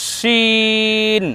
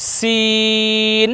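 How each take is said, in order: First: শিন with thick sh, vowel held very long; airy sheen. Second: সিন with a thin s, vowel held very long; thin seen. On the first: Teacher recaps the following letter, long airy শিন. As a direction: stretch শিন on a level note with airy sh. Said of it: "এর পরের বর্ণ শিখলাম". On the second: Teacher recaps the first letter, long thin সিন. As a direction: stretch সিন on a level note. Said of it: "আমরা প্রথমে শিখলাম". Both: Shown as a demonstration.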